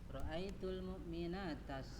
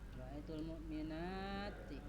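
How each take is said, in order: First: The word mu'minat ends with an 'a' vowel. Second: The word mu'minat ends with an 'i' vowel. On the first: The speaker calls it wrong. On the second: The speaker calls it right.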